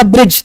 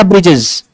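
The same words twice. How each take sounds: First: ब्रिज said as written, single syllable bridge; written word. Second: ब्रिजेस with an extra plural ending, bri-jes; careless misreading. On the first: Shown as a demonstration. Teacher showing the correct reading ब्रिज to students. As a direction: read ब्रिज exactly as printed, no plural ending. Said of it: "उसमें लिखा होगा ब्रिज". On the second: Retold or imitated. Teacher mimicking a student's sloppy misreading ब्रिजेस. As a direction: imitate a student adding es to ब्रिजेस. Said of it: "तो पढ़ देगा ब्रिजेस".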